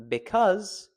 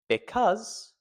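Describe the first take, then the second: First: The stress lands on a syllable that sounds natural. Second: The stress lands on a syllable that sounds natural.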